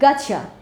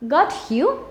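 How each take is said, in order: First: The t and y merge into ch. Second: The t and y sounds stay separate.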